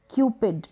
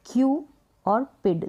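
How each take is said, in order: First: Said in the usual way. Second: क्यू raised and held, then पिड apart; long "kyoo" on क्यू, pause, then पिड; syllable by syllable. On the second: Shown as a demonstration. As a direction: give क्यू और पिड as two separate pieces. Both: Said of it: "दो इसके break किए".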